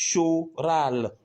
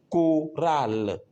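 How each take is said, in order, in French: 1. Le ch se prononce comme un son sh. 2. Le ch se prononce comme un son k. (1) "Au lieu de dire" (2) "on dit"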